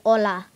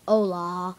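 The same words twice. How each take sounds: First: It is said with a Spanish accent. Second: It is said with an English accent. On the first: The speaker calls it right. "you want to say hola" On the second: The speaker calls it wrong. "you might say hola if you're just English"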